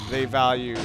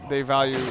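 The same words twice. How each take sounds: The two takes are said the same way.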